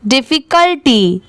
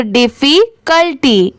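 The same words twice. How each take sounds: First: "difficulty" run together as one quick word; at speed. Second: "difficulty" slowly split as diffi, cul, ty; slow, in parts. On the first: Teacher showing the speedy reading, "difficulty" quick and joined. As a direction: read "difficulty" swiftly, without breaks. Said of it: "इसे speed में पढ़ते हैं". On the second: Teacher joining three parts for learners, "difficulty" slowly in pieces. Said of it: "साथ में मिलाएंगे तीनों को". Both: Shown as a demonstration.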